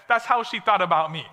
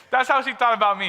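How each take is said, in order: First: Said in the usual way. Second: Said again through a laugh, a bit faster. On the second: Real, not acted. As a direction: chuckle as you repeat it.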